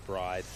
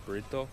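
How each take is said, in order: First: Bride said the English way, one syllable with a long i; plain English bride, one quick syllable; English pronunciation. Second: Burrito said the Japanese way, bu-ri-do, three syllables with a tapped r; Japanese pronunciation. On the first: Telling viewers how Westerners say the brand: bride as one English syllable. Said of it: "we don't pronounce it as". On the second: Telling viewers how the Japanese say the brand: burrito said bu-ri-do. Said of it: "In Japanese, it's, it's pronounced as". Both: Shown as a demonstration.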